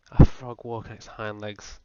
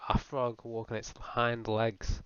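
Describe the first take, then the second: First: Disbelief. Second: Slow dread. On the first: Incredulous rhetorical question. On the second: Slow horrified repeat. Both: Acted.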